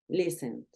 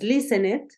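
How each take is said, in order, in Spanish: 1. La consonante final es una D suave. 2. La consonante final es dura y fuerte. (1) "Es una D más suavecita" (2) "No dices listened"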